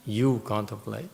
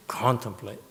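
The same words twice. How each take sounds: First: YOU contemplate, you stressed. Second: Said in the usual way. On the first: Shown as a demonstration. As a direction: put the weight on "You" before "contemplate". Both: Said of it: "You see the difference?".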